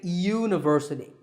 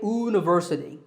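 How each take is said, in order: First: The word begins with a y sound. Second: The word begins with a plain vowel sound. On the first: The speaker calls it right. "The word university starts with a y sound" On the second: The speaker calls it wrong. "We don't say university"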